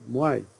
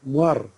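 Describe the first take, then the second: First: The word ends in a gliding diphthong. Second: The word ends in an r sound. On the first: This is the southern dialect form. "like we in the south say Muay" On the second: This is the northern dialect form. "they say Muar"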